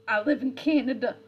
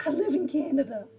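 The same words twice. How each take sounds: First: Louder, put-on Scottish lilt on I live in Canada; a Scottish-flavoured protest; mock Scottish accent. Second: Higher and louder, put-on Scottish lilt on I live in Canada; hammed-up Scottish insistence; mock Scottish accent. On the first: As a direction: insist in a hammed-up Scottish accent. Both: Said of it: "like, Scottish".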